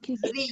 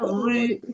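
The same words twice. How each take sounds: First: The r sound is light and thin. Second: The r sound is heavy and thick. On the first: The speaker calls it right. "pisori is not heavy" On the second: The speaker calls it wrong. "It's not ri"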